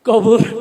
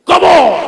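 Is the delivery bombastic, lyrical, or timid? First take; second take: timid; bombastic. First: It is said hesitantly in a shy voice. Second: It is declaimed loudly like a political speech. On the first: A shy person is too embarrassed to recite. "লাজুক ছেলে" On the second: A politician is reciting it like a stage speech. "নেতারা তো সাধারণত রাজনীতির মঞ্চে ব- বক্তব্য দিয়ে অভ্যাস"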